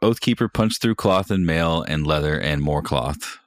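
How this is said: It is read in a cheerful tone.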